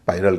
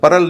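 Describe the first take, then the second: First: The first vowel sounds like 'eye'. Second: The first vowel sounds like 'ur'. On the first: The speaker calls it right. "पायरल कह रहे हैं" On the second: The speaker calls it wrong. "इसको परल नहीं कह रहे हैं"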